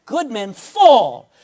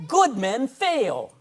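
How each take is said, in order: First: "Good men fall." much louder and slow, "fall" hit hardest; loud slow stress. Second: "Good men fail." slow, each word weighted, "Good" leaned on hardest; slow emphatic stress. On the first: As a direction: punch it out loud, landing on "fall". Preacher repeats the point louder. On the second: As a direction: lay it down slowly with "Good" stressed. Preacher stressing a point. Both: Acted.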